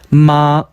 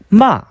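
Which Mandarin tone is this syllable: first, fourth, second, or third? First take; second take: first; fourth. First: It is said with the first tone. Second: It is said with the fourth tone. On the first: "일" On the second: "사성"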